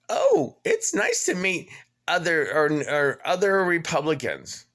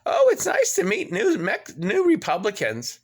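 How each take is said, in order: First: High, sing-song mocking "Oh, it's nice"; mock reviewer. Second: High, sing-song mocking "Oh, it's nice"; sneering at the cheery review; mock reviewer. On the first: Quoting the Paradise Shores review in a high mocking voice. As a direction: parody the chirpy reviewer. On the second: Reading the Google review in a high mocking voice. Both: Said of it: "a Google review I found that says".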